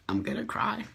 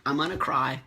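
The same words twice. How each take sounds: First: Higher and softer, voice about to break; close to tears. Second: Said in the usual way. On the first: Real, not acted. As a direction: let it catch as the tears come.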